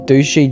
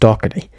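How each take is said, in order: First: The name is said as two syllables, 'Dushy'. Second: The name is said as three syllables, 'Doherty'. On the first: The speaker calls it wrong. "I pronounced it as Dushy" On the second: The speaker calls it right. "it's meant to be pronounced Doherty"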